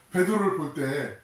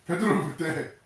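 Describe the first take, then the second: No difference in how they are said.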